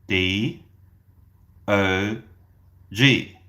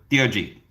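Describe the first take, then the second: First: The letters are spelled out slowly. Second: The letters are spelled out quickly. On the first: The speaker calls it right. "I want you to say it slowly like this" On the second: The speaker calls it wrong. "That is too fast"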